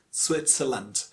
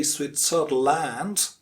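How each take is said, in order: First: Switzerland as SWIT-suh-lund; correct pronunciation. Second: Switzerland with a full LAND at the end; mispronunciation. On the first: Teacher giving the correct form, reduced Switzerland. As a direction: say "Switzerland" with a weak lund ending. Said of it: "the correct pronunciation". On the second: Teacher showing how we say it, mispronounced Switzerland. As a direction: slowly say "Switzerland" as SWIT-zer-LAND. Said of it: "We say". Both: Shown as a demonstration.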